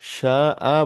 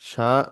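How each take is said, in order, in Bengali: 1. শেষ স্বরধ্বনিটি টেনে দীর্ঘ করা হয়েছে। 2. শেষ স্বরধ্বনিটি ছোট ও ছাঁটা। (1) "শা আ বলতে হবে, কারণ শেষে দুই জবর রয়েছে।" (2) "শা বলা যাবে না তো।"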